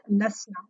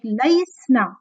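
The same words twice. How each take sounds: First: "lasna" with a short plain a and no y glide; ya dropped. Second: "laisna" with the ya fully sounded before the s; ya kept. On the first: Teacher explaining the weak verb to students, "lasna" with ya dropped. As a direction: say "lasna", going straight from short a into sna. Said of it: "the ya is dropped". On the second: Teacher showing students the unpronounceable form, "laisna" slow with ya sounded. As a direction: stretch "laisna" slowly, holding the ai glide into sna. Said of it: "You, you cannot even pronounce it". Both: Shown as a demonstration.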